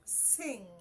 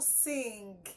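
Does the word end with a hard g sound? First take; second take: no; yes. First: It ends in a nasal sound without g. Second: It ends with a hard g sound. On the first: The speaker calls it right. "There is nothing g in it" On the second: The speaker calls it wrong. "is not sing"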